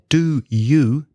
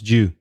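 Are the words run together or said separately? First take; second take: separately; run together. First: Both words are said fully and separately. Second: The two words merge into one short syllable.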